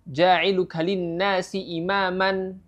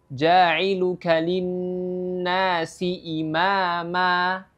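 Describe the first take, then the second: First: The last word ends with an n sound. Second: The last word ends with a long a vowel. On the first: The speaker calls it wrong. "Jadi bukan ja'iluka linnasi imaman ya. Kalau berhenti tidak boleh imaman" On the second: The speaker calls it right. "dengan fathah dan ditambah dengan dua harakat ya"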